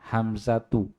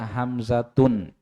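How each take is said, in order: First: The name ends in a plain u vowel. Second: The name ends in u followed by n. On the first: The speaker calls it right. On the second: The speaker calls it wrong. "jangan dibaca Hamzatun"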